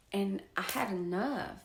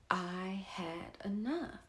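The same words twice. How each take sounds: First: Said in the usual way. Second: Breathy whisper of "I had enough". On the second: Real, not acted. Resolving to herself she's done, whispered. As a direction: drop to a slow, firm whisper.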